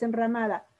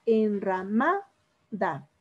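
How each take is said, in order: First: Said in the usual way. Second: Enramada slowly split, MA drawn out before a pause; teacher sounding out en-ra-MAAA, da in Enramada; stress on MA in Enramada. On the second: Shown as a demonstration. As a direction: stretch Enramada syllable by syllable, leaning on MA. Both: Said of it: "¿Cuál es la sílaba tónica?".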